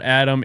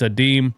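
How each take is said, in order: First: The second syllable sounds like 'um'. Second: The second syllable sounds like 'im'. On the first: The speaker calls it wrong. "His name's not Adam" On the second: The speaker calls it right. "it's Adim"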